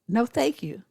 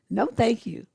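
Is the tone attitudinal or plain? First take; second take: plain; attitudinal. First: It is said in a plain, polite tone. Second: It is said with a firm, attitudinal tone. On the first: A simple refusal. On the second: The refusal is final and not open to argument.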